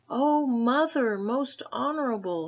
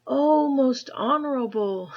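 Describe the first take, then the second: First: Panting. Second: Put-on high, loud cry of a boy; Chang's first loud try; urgent boy's call. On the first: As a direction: gasp it out as a winded boy. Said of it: "he panted". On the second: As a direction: shout it out as little Chang. False start, then restarted. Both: A narrator's reading.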